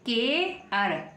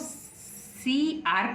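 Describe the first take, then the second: First: It sounds like one word, kair. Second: It sounds like two letter names, see-are. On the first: The speaker calls it right. "इसको पढ़ेंगे के अर" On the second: The speaker calls it wrong. "क्या हम इसको सी आर पढ़ेंगे, नहीं"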